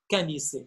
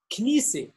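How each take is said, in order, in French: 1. Une voyelle sépare les deux premières consonnes. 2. Les deux premières consonnes se prononcent ensemble. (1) "malheureusement, lorsque vous mettez un micro dans la main d'un Libanais, il va dire kanisse" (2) "On dit knisse"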